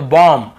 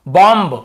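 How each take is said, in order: First: बॉम्ब said as bom, ending on m with the b silent. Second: बॉम्ब said as bomb with a final b, the mistaken way; wrong b sounded. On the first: Teacher correcting students' reading, b silent. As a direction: close बॉम्ब on the m, no b. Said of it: "बी को नहीं पढ़ना है". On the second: Teacher imitating how students misread it, b sounded. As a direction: end बॉम्ब on an audible b. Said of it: "ब का उच्चारण करते". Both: Shown as a demonstration.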